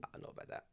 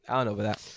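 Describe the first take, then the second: First: Breathy whisper of the line; hushed whispered take. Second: Said in the usual way. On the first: Shown as a demonstration. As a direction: whisper it, no voice at all. Repeating a line two ways.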